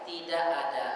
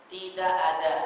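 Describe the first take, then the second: First: "Tidak ada." with the d made the Indonesian way. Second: The Arabic d in "Tidak ada.". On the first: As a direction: say "Tidak ada." with the local tongue-tip d. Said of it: "Tapi kalau kita enggak". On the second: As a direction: say "Tidak ada." with the d set further back. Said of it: "mereka mengatakan". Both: Shown as a demonstration.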